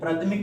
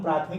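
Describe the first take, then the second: First: The first vowel is short. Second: The first vowel is long. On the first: The speaker calls it wrong. "प्राथमिक नहीं बोलते हैं" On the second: The speaker calls it right. "हम प्राथमिक ही बोलते हैं"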